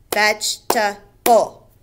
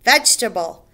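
First: "Vegetable" slowed, syllables apart: veg-e-ta-ble; slow syllable split. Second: Said in the usual way. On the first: Shown as a demonstration. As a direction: tap out "Vegetable" one syllable at a time. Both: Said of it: "Three syllables".

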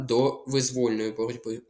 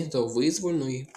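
First: «визвольної» stressed on VOL; stress on second syllable. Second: «визвольної» stressed on the first syllable VY; wrong-stress example. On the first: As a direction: lean on «воль» in «визвольної», as in воля. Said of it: "Бо воля". («визвольної» з наголосом на «воль») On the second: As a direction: hit the opening of «визвольної». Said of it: "Не до визвольної". («визвольної» з наголосом на «ви») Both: Shown as a demonstration.

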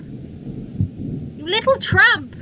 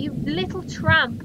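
First: TRAMP stretched slowly and raised in pitch; very slow, exaggerated taunt landing on TRAMP; drawn-out insult. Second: Said in the usual way.

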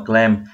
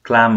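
First: "clam" said like "klem"; clam with E vowel. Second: "Clam" said like "klahm"; broad ah in "Clam"; clam with A vowel. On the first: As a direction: open e in "clam". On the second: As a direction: say "Clam" with an open a. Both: Shown as a demonstration. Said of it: "hai chữ dễ nhầm lẫn".

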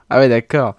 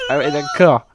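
First: Said in the usual way. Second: Laughing. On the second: Real, not acted. Still laughing after a big laugh.

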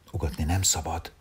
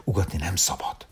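First: Said in the usual way. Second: The man hushes the puppy in a whisper; hushing whisper. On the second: A narrator's reading. The man whispers to the puppy not to bark. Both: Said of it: "szájára tette a kezét".

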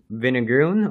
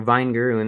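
First: Vinegaroon with a short i, VIN-uh-groon; first pronunciation. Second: Vinegaroon with a long i, VINE-groon; alternative pronunciation. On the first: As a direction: say vinegaroon starting like "vin" in vineyard. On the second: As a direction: say vinegaroon starting like the word "vine". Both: Shown as a demonstration. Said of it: "not really sure how you pronounce it".

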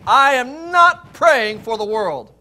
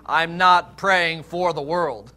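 First: Loud, high, slow stress on "not"; very emphatic. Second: Slow, deliberate stress on "not"; measured line with weight on "not"; specific, emphatic. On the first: Preacher driving home Jesus' words to the congregation, loudly emphatic "not". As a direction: ring out "I am not", each word weighted. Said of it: "emphatic on that". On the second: Preacher spelling out what Jesus specifically said, deliberate "not". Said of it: "actually specifically saying". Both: Retold or imitated.

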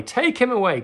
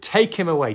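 First: Much higher, loud repeated yell; shout rising higher. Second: Loud, higher shouted demand; crowd shouting. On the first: Crowd repeating the demand to Pilate, higher and louder shout. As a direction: push the second cry up even harder. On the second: Crowd shouting at Pilate to take Jesus, loud. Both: Retold or imitated. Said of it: "But they shouted".

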